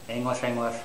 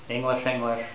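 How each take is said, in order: Both takes have the same delivery.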